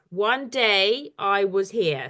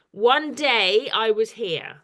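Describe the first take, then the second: First: "One day I was here" in five slow beats; syllable by syllable. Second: Slow, measured haiku line; reciting a poem. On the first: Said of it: "that's five syllables". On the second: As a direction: read it out slowly as verse. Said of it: "it says". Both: Shown as a demonstration.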